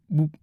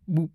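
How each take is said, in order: Both takes have the same delivery.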